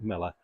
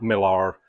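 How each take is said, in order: First: The name ends with a weak 'er' vowel. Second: The name ends with a full 'ar' vowel. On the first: The speaker calls it right. "but Miller" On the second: The speaker calls it wrong. "as some people say"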